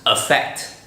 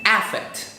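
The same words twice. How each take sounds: First: It is said with its ordinary, natural first vowel. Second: It is said with an exaggerated, distinct first vowel. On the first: The speaker calls it right. "it's actually pronounced affect" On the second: The speaker calls it wrong. "That's not how it's pronounced. I just want to say that so that you can distinguish between the two words"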